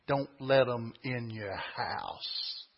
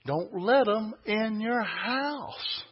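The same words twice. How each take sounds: First: Low, slow "Don't let 'em in your house."; slow low warning. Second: High, slow "Don't let 'em in your house."; insistent warning. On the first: Preacher warns congregation from scripture, low and slow. First take, then repeated higher. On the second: Preacher repeats scripture's warning, high and insistent. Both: Real, not acted.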